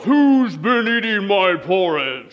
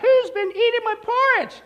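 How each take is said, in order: First: It is said in a loud roaring voice. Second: It is said in a small squeaky voice.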